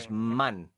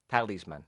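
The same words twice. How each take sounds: First: The stress is on the last syllable. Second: The stress is on the first syllable. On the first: This is the Spanish pronunciation. "Talisman, you say" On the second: This is the English pronunciation. "In English, it's the opposite. It's the first syllable"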